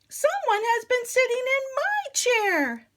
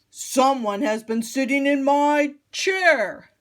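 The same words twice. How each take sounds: First: It is said in a middle-sized voice. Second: It is said in a very big voice.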